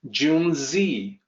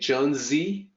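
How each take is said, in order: First: The first vowel sounds like 'oo' in June. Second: The first vowel sounds like 'uh'. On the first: The speaker calls it right. "Junzi will be closer to the actual pronunciation" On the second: The speaker calls it wrong. "native speakers will look at that and say Junzi"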